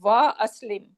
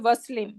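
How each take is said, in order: First: A glottal stop separates wa from aslim. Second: Wa runs straight into slim without a stop. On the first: The speaker calls it right. "I am going to say wa aslim" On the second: The speaker calls it wrong. "I'm not gonna say waslim"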